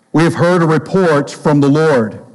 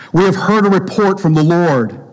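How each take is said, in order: No difference in how they are said.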